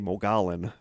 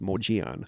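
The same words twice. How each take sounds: First: The name is sounded out letter by letter. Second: The name is sounded differently from its letters. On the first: The speaker calls it wrong. "because it's M O G O L L O N, so I always want to say" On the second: The speaker calls it right. "but it's"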